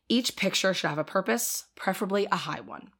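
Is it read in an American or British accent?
American. It is read in the speaker's American accent.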